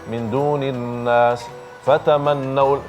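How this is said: There is a stop after nas before continuing. The speaker calls it right. "bisa diberhentikan kemudian melanjutkan"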